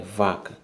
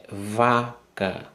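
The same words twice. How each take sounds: First: Said in the usual way. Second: VACA drawn out slowly as "va... ca"; syllable by syllable. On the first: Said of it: "Eu boto aqui no quadro pra você ver". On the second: Shown as a demonstration. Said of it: "A primeira sílaba".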